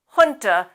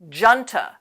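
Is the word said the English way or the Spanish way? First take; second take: Spanish; English. First: The first sound is said the Spanish way. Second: The first sound is said the English way. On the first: The speaker calls it right. "It's supposed to be pronounced junta, even in English" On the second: The speaker calls it wrong. "Sometimes you'll hear native speakers pronounce that as junta, but they're wrong. We do not anglicize that word"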